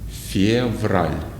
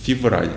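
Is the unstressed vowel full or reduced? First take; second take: full; reduced. First: Said slowly with a full unreduced vowel. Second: Said at normal speed with a reduced vowel. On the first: "let's read these words slowly and pronounce every E like E" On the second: "when we say these words normally, they will sound like this"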